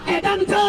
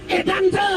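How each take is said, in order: Both takes have the same delivery.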